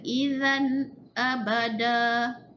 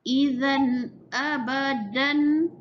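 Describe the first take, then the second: First: The last word ends in a long a vowel. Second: The last word ends with an n sound. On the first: The reader stops at this word. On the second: The reading continues without a stop.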